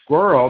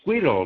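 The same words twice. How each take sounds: First: The first vowel is the er sound. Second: The first vowel sounds like an i. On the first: The speaker calls it right. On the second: The speaker calls it wrong.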